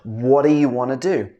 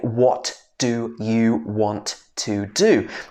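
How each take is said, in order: First: The words run together as one linked unit. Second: Each word is said separately and fully. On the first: The speaker calls it right. "We would say" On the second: The speaker calls it wrong. "We wouldn't say ... that would be too much effort"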